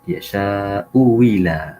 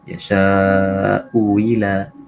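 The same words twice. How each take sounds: First: The second hamza is replaced by a w sound. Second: The second hamza is softened, not fully pronounced. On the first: "Yang kedua" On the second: "dengan tashil"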